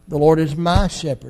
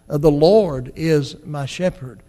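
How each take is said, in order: First: The word my carries the main stress. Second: The word Lord carries the main stress. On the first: God is personal and knows each individual. "I'm glad He's a personal God" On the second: There is a master in heaven who cares for us. "I'm glad we have a Lord in heaven"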